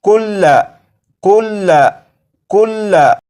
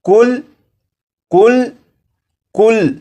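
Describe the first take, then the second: First: The word ends with a final vowel sound. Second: The word ends on a consonant, without a vowel. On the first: "ये लफ्ज़ लिखा है कुल्ला" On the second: "ज़बर को नहीं पढ़ेंगे और ये लफ्ज़ पढ़ा जाएगा"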